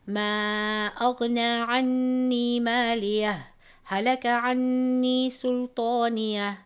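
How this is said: It stops fully with a breath between the words. "read it as a waqf, a stop, and take a breath"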